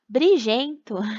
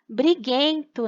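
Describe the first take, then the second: First: The G is said soft, like a zh sound. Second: The G is said hard, as in go. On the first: The speaker calls it wrong. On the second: The speaker calls it right.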